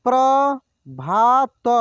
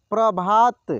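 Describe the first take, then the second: First: Prabhat drawn out slowly, syllable by syllable; slow sounding out. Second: Said in the usual way. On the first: Shown as a demonstration. Teacher slowly sounds out Prabhat for students. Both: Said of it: "एक एक मात्रा को अलग अलग करके".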